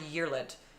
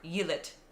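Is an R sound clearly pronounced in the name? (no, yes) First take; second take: yes; no. First: The R sound in the name is pronounced. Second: The R sound in the name is dropped.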